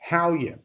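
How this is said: It is said in an Irish accent. "Aqui, literalmente, se fala só"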